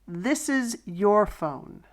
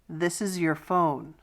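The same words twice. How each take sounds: First: It is said slowly, stressing 'your'. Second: It is said at normal speed, 'your' reduced.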